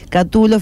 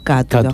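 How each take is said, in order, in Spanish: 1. El acento está en la segunda sílaba. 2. El acento está en la primera sílaba. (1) "fíjese que es una palabra grave" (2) "se le corre el acento hacia atrás y queda como esdrújula"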